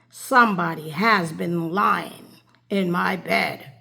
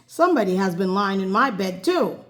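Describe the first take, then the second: First: It is said in a great big bear voice. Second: It is said in a middle-sized bear voice.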